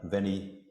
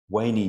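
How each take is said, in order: First: The word begins with a v sound. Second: The word begins with a w sound.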